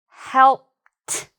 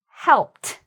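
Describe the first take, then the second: First: The word is said slowly and drawn out. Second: The word is said more quickly and smoothly. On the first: "you just move it while you pronounce it" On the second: "moving my finger a little bit faster"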